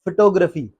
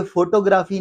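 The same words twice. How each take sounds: First: फोटोग्राफी as fuh-TO-gruh-fee; short first and third vowels in फोटोग्राफी; correct pronunciation. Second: फोटोग्राफी as FO-to-GRAA-fee; full O and long AA in फोटोग्राफी; wrong pronunciation. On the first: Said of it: "इसका actually मतलब क्या जी?". (फोटोग्राफी सही, फ़-टो-ग्रफ़ी) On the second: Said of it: "तो ये फोटोग्राफी नहीं है". (फोटोग्राफी ग़लत, फ़ो-टो-ग्रा-फ़ी) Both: Shown as a demonstration.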